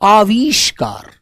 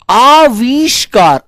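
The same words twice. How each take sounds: First: आविष्कार said slowly with a clear ष; correct pronunciation. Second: आविष्कार said slowly, a bit higher, as the mistake; mock the wrong आविष्कार, drawn out; wrong pronunciation. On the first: Teacher correcting the pupils' आविष्कार. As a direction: give the proper आविष्कार, calm and slow. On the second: Teacher acting out the pupils' wrong आविष्कार. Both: Shown as a demonstration. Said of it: "आविष्कार नहीं बोलते".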